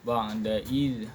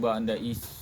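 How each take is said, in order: First: The final consonant is a voiced buzzing z. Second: The final consonant is a voiceless hissing s. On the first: The speaker calls it right. "dia zai ni tidak ada uh, tidak ada hamas, dia jahar" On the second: The speaker calls it wrong. "ataupun ba'da is salah"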